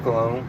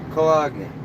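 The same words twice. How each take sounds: First: The G sound is not clearly pronounced. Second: The G sound is clearly pronounced. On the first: The speaker calls it wrong. "Not cologne" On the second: The speaker calls it right. "You gotta pronounce the G. It's not silent"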